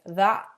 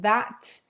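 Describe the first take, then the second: First: The final T sound is dropped. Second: The final T sound is pronounced.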